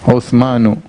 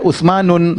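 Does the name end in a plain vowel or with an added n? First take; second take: plain vowel; added n. First: The name ends on a plain vowel, no final n. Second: The name ends with an added final n sound. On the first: The speaker calls it right. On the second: The speaker calls it wrong.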